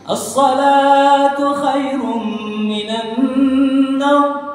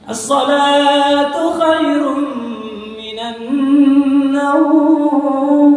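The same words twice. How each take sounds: First: The final word naum is kept short. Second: The final word naum is drawn out long.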